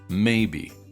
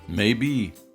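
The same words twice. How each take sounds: First: The stress is on the first syllable. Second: The stress is on the second syllable. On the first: "stressed on the first syllable" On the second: "it can optionally be stressed on the second syllable"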